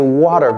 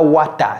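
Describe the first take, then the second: First: The word ends in an 'er' sound. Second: The word ends in an open 'ah' sound. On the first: The speaker calls it right. "c'est water" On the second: The speaker calls it wrong. "C'est pas wata"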